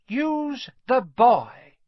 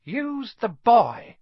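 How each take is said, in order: First: Much higher, louder, very slow ghostly command, stretched further; an eerie echoing master; Voldemort's voice. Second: Much higher, louder, very slow ghostly command; a hissing otherworldly master; eerie slow command from within Quirrell; Voldemort's voice. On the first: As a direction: otherworldly voice repeating the order. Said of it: "the voice seemed to come from Quirrell himself". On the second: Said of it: "a voice answered". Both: A narrator's reading.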